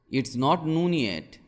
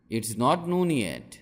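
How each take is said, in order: Both takes have the same delivery.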